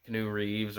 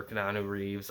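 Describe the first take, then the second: First: Keanu said short, as kuh-NOO; alternative pronunciation. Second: Keanu said long, as kuh-NAH-noo; other pronunciation. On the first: Movie fan weighing up pronunciations, Keanu as two-syllable kuh-NOO. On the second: Movie fan weighing up pronunciations, Keanu as three-syllable kuh-NAH-noo. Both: Shown as a demonstration. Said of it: "I've heard different pronunciations".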